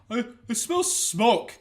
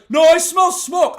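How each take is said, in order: First: Slow, drowsy worried mumble; half-asleep first warning; sleepy brother. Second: Much higher, louder, slow insistence; insistent brother. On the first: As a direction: brother warning in the dark, slowly. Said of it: "I just hear from the other one". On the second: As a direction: press the warning hard. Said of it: "And he's like". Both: Retold or imitated.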